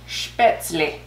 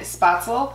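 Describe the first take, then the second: First: It is said with an umlaut vowel and '-zle' ending. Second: It is said with a plain 'a' and '-zel' ending. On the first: The speaker calls it right. "I looked it up and it's Spätzle" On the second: The speaker calls it wrong. "I kept pronouncing it Spatzel"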